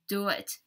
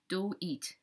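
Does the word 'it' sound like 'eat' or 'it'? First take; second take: it; eat. First: The word 'it' has a short 'ih' vowel. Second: The word 'it' has a long 'ee' vowel. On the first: The speaker calls it right. "That's the more correct way to to to pronounce it" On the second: The speaker calls it wrong. "Taiwanese people usually say do it, do it. E e e. They say e instead of it"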